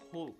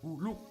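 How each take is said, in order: First: It is one syllable with no extra vowel. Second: An extra vowel splits it into two syllables. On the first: The speaker calls it right. "bacanya tuh Hulk" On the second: The speaker calls it wrong. "bukan Huluk"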